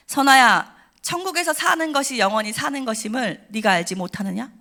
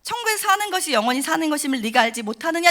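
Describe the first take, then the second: First: Solemn, commanding call of a name; voice of God. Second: A grave divine question, a bit higher; solemn quoted voice of God; voice of God repeated. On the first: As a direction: speak as God calling from above. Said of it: "너무 선명한 음성 한마디를 들어요". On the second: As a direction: repeat God's solemn words to the congregation. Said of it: "여러분 아시겠죠?". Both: Retold or imitated.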